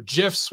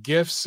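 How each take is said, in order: First: "gifs" said as jiffs; "gifs" opening like the word jiffy; soft-g pronunciation. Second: "gifs" with a hard g as in gift; "gifs" opening like the word give; hard-g pronunciation. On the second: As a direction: say "gifs" starting with a hard g sound. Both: Shown as a demonstration. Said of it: "whatever they call it".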